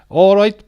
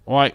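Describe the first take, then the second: First: It is said in a Welsh accent. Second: It is said in a London accent. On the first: "Welsh accent. Let's try"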